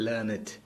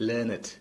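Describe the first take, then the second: The two takes are said the same way.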